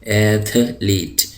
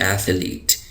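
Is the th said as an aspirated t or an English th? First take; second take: aspirated t; English th. First: The th is an aspirated t sound. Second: The th is a soft English th. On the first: The speaker calls it wrong. "ये था की आवाज़ है ... लेकिन ऐसा नहीं है" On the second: The speaker calls it right. "थे और थे के दरमियान एक आवाज़ होती है"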